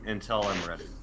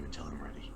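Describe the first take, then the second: First: It is said in the speaker's natural voice. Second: It is said in a put-on character voice. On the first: The speaker calls it wrong. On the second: The speaker calls it right.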